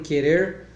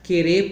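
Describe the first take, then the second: First: The final R is pronounced. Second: The final R is dropped. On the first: This is the standard way of speaking. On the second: This is the rural caipira way of speaking.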